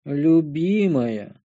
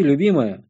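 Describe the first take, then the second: First: Любимая drawn out very slowly in a fake tearful wail; fake crying. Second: Said in the usual way. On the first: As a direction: stretch Любимая into a hammed-up sob. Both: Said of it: "пустил я фальшивую слезу".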